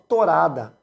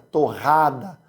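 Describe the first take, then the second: First: The middle R is a light single tap. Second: The middle R is a strong guttural sound. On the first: This is how Italian immigrants say it. "Eles falam torada" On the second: This is how locals in Paraná say it. "O R retroflexo que nós falamos no Paraná... Esse R que vem lá gutural"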